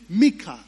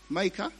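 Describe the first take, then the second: First: The name has a Hebrew-style pronunciation. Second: The name has an English-style pronunciation. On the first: The speaker calls it right. "Micah should be Mika" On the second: The speaker calls it wrong. "Micah should be Mika"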